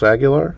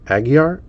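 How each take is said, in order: First: The name is said with an L sound. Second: The name is said without an L sound. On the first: The speaker calls it wrong. "No, try that again" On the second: The speaker calls it right. "with just with no L"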